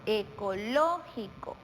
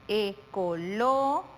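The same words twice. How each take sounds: First: Slow, joined "Ecológico" peaking on LÓ, then falling; stress on antepenultimate syllable. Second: Slow "ecológico", long pause after a rising LÓ; broken into syllables. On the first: Teacher asking where the intensity is, stressed LÓ in "Ecológico". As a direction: say "Ecológico" as one word, leaning on LÓ. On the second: Teacher presenting the last word, "ecológico" slowly broken into parts. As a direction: draw out e-co-LÓ, wait, then finish "ecológico". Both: Shown as a demonstration. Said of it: "Dónde damos la mayor intensidad".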